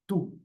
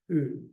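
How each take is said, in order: First: The t is released straight into the vowel. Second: The t has a puff of air before the vowel.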